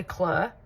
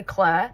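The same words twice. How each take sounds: First: Southport "Claire", vowel turned to that of "fur"; Southport accent. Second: Said in the usual way. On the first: Shown as a demonstration. Vlogger demonstrating hometown speech, Southport "Claire" rhyming with "her". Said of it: "they say Claire". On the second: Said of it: "They don't say Claire".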